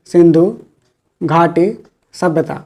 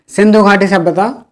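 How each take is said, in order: First: Slow, soft, word by word as if dictating; slow dictation. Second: Said in the usual way. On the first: Shown as a demonstration. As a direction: spell it out slowly for notes. (धीरे धीरे, लिखवाते हुए) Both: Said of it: "teacher repeats term for notes".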